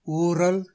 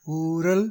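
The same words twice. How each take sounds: First: ஊரல் with r rolled as ற; ஊரல் with heavy ற; wrong ர. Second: ஊரல் with a light tapped r; ஊரல், r not trilled; correct ர. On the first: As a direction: say ஊரல் with hard trilled r. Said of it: "தவறு". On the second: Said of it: "சரி". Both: Shown as a demonstration.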